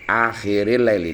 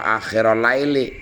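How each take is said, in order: First: The word akhir ends in an i vowel. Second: The word akhir ends in an u vowel. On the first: The speaker calls it right. "Harus dibaca akhiril laili" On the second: The speaker calls it wrong. "nggak boleh dibaca akhirul laili"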